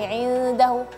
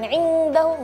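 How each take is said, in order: First: The n is a light, softer nasal. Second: The n is a heavy, ng-like nasal. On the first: The speaker calls it right. "tapi indahu" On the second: The speaker calls it wrong. "Jangan indahu, enggak"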